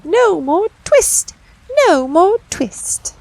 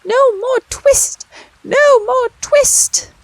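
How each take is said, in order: First: High, slow sung refrain; little mouse voices singing. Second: Very high, slow squeaky chant; little twittering voices shouting. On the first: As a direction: sing it faintly through the shutters. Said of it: "little mouse voices singing". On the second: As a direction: shout it like a crowd of tiny mice. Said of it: "shout at once in little twittering voices". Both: A narrator's reading.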